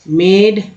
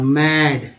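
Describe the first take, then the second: First: The vowel sounds like 'eh'. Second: The vowel sounds like 'ah'. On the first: The speaker calls it wrong. "यहाँ पर ए बोलना है" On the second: The speaker calls it right. "ए का उच्चारण आ के रूप में हो रहा है"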